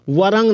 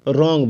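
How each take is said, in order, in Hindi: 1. यह शब्द R से पहले W की आवाज़ से शुरू होता है। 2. यह शब्द सीधे R की आवाज़ से शुरू होता है। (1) "वरंग नहीं बोलेंगे" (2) "रॉन्ग बोलेंगे"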